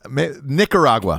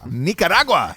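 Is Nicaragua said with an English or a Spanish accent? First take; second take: English; Spanish. First: It is said with a plain English accent. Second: It is said with a Spanish accent. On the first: The speaker calls it wrong. "Can you do a better job of saying Nicaragua?" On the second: The speaker calls it right. "you need a little accent on it"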